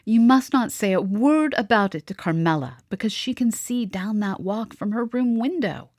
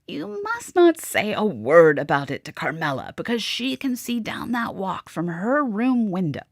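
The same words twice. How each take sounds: First: It is read in the narrator's own voice. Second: It is read in Madame's character voice.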